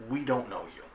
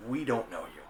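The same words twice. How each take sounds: The two takes are said the same way.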